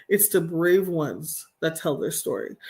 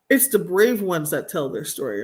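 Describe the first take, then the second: First: Slow, deliberate restatement; emphatic repeat. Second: Said in the usual way. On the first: Real, not acted. Speaker repeating her point to listeners, slowly and deliberately. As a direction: spell it out slowly for them. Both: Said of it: "I'm gonna say that again".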